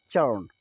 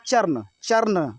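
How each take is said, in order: First: चरण as "chuhn", R nearly gone; silent R. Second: चरण with a sounded R before the n; as written. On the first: Teacher showing how to read it, silent R. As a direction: lower pitch, glide चरण into n without R. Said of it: "लेकिन पढ़ेंगे क्या?". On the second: Teacher reading the spelling, R sounded. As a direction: pronounce the R in चरण. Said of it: "ये लिखा है". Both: Shown as a demonstration.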